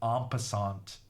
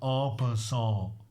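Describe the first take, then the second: First: The final T is pronounced aloud. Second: The final T is silent, ending nasal. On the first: The speaker calls it wrong. "apparently I'm pronouncing it wrong. This T is silent, someone said" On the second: The speaker calls it right. "The irony is that I'm getting it right"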